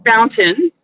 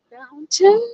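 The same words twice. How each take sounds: First: Said in the usual way. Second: "Fountain?" with an unsure rising question tune. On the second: Real, not acted. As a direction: ask "Fountain?" as if checking the street name.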